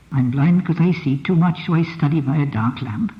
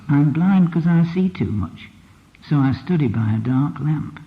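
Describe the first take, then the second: First: Said in the usual way. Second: Slow, weighted reading of the line; slowed line, stress on blind; dialect reading, slower. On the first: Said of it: "She didn't say that". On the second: Shown as a demonstration. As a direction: say it slowly, leaning on blind. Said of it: "What she said was".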